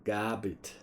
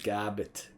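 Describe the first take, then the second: First: The name is said in a New Zealand accent. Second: The name is said in a New Zealand accent.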